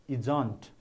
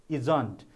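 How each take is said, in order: No difference in how they are said.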